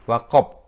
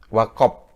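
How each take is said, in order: Both takes have the same delivery.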